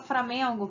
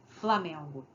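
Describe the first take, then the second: First: The word begins with an 'fr' sound. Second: The word begins with an 'fl' sound. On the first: This is the variety some people call wrong. "o fulano fala tudo errado, né? Porque ele fala" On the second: This is the form some people call correct. "em vez de falar"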